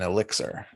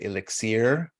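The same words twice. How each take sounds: First: It is said in an ordinary, plain way. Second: It is said in a fancy, pretentious-sounding way. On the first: The speaker seems ordinary and unpretentious. "rather than elixir" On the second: The speaker seems showy and refined. "you sound more pretentious if you say elixir"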